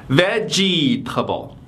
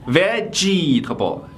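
The two takes are said the same way.

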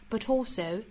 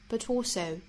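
No difference in how they are said.

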